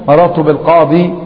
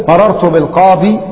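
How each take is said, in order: The two takes are said the same way.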